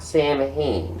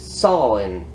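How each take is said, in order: First: Said as 'Sam Hain', with a clear 'm' sound. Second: Said like 'sow-in', with no 'm' sound. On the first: The speaker calls it wrong. "not Sam Hain" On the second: The speaker calls it right. "it's Solon"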